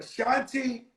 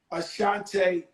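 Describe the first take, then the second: First: [name] ending in "tee"; corrected pronunciation. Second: Ashante ending in "tay"; mispronounced name. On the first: Shown as a demonstration. Host repeating singer's correction, [name] now ending in "tee". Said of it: "how should I say it?". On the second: Real, not acted. Host asking singer about a battle, name mispronounced as Ashante with "tay". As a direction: say Ashante with a long AY at the end. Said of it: "stop calling me Ashante".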